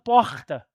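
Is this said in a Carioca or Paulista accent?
Carioca. It is said in a Rio de Janeiro accent. This is how the locals expect it to be said. "e não porta"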